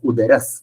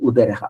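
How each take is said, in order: First: The word ends with an s sound. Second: The word ends with a breathy h sound.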